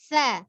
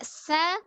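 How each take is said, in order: First: The consonant is soft with no hiss. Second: The consonant has a hissing s-like sound. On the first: The speaker calls it right. "Dia tidak memiliki sifat uh, desis" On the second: The speaker calls it wrong. "tidak sa"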